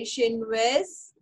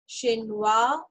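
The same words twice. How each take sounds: First: Chinoise said shenwez with a final z sound; corrected ending. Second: Chinois said shenwa with no final z sound; wrong ending. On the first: French teacher correcting herself to the feminine form, Chinoise ending in z. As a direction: Chinoise slowed down, ending clearly on z. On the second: French teacher's slip before correcting herself, Chinois without the z. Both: Shown as a demonstration. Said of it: "sorry, Chinoise".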